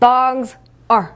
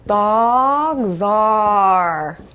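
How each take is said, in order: First: The two words are said separately with a break. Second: The two words run together with a voiced link. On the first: The speaker calls it wrong. "이렇게 끊어서 읽었어요? 아니죠" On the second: The speaker calls it right. "이렇게 발음이 돼요"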